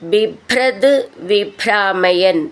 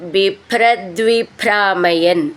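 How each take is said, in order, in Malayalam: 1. ഈ രണ്ട് വാക്കുകൾ വേറെ വേറെയാണ് പറയുന്നത്, ഒന്നിച്ചു ചേർക്കാതെ. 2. ഈ രണ്ട് വാക്കുകൾ ചേർത്ത് ഒന്നാക്കിയാണ് പറയുന്നത്.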